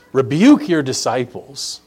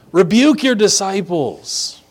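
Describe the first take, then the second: First: Said in the usual way. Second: Higher-pitched, mock-indignant command; imperious demand. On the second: Pharisees commanding Jesus to rebuke his followers, imperious. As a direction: order it as if entitled to.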